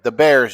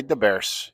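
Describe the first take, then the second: First: Said in the usual way. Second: "the Bears" said as "da Bears"; Chicago D for TH. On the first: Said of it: "instead of T H". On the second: Shown as a demonstration. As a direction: harden TH to D in the Bears. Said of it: "you just make it a D".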